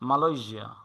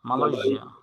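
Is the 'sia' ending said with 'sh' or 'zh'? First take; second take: zh; zh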